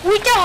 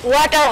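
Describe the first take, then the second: First: The first vowel sounds like 'wee'. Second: The first vowel sounds like 'wah'. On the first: The speaker calls it wrong. "ওটা উইটার হবে না" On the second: The speaker calls it right. "ওয়াটার হবে"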